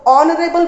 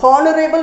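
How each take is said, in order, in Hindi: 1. इस शब्द की शुरुआत सीधे स्वर की ध्वनि से होती है। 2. इस शब्द की शुरुआत बोली जाने वाली H ध्वनि से होती है। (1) "ऑनरेबल बोलेंगे तो साउंड ओ से आएगा" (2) "इट्स नॉट हॉनरेबल नहीं बोलेंगे इसको"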